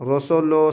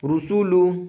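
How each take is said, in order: First: The vowels are open, drawn-out o sounds. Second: The vowels are tight, short u sounds. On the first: The speaker calls it wrong. "ऐसा नहीं पढ़ना है, ये गलत है" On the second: The speaker calls it right. "ऊ एकदम टाइट और सख्ती के साथ अदा करना पड़ेगा"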